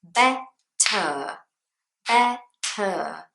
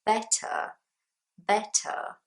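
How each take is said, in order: First: "better" pulled apart slowly, BET, pause, TUH; two syllables. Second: "better" higher, joined up, with a clear final TUH; full last syllable. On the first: Teacher shows British English syllables, "better" in two slow parts. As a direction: split "better" at a crisp T, giving each syllable time. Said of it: "two syllables". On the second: Teacher models the last syllable, "better" said in full. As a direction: give the end of "better" its time. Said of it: "you need time to say the last syllable". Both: Shown as a demonstration.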